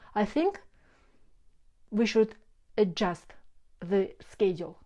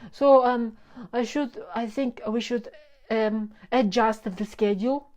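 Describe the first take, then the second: First: A silent breath replaces the filler sounds. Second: The hesitations are filled with 'um' sounds. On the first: The speaker calls it right. "or with a natural breath" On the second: The speaker calls it wrong. "Use the power of pause instead of a filler"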